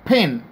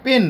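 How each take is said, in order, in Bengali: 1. প্রথম 'p'-তে বাতাসের জোরালো ঝলক আছে। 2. প্রথম 'p' অল্পপ্রাণ, কোনো ফুঁ ছাড়া। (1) "উচ্চারণটা হবে ফেন" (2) "আসলে পেন না"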